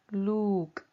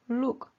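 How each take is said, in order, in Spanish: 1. La vocal es larga y sostenida. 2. La vocal es corta y breve. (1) "no look" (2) "la palabra es look"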